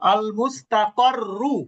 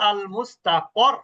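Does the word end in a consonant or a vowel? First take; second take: vowel; consonant. First: The word ends with a short vowel. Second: The word ends on a consonant. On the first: The reading continues into the next word. "যদি মিলিয়ে পড়েন" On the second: The reader stops after this word. "আর যদি থেমে যান"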